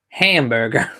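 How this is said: It is said in an attempted American accent. "and you go hamburger. I can't do the accent"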